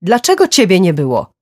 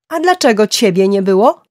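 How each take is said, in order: First: Loud, raised voice falling at the end; heated, high reproach with a falling close; angry accusation. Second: Loud, high question rising at the end; indignant yell, pitched up to a rising finish; shouted retort. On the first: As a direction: throw the blame hard. Angry accusation in a parents' quarrel. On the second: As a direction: fling the accusation straight back. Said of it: "krzyknęła Gillian w odpowiedzi". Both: A narrator's reading.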